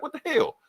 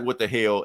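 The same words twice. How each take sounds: First: A startled squeal of disbelief; shocked yelp. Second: Said in the usual way. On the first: Retold or imitated. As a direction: jump way higher in shock. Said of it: "He was like". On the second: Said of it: "And Cap's like".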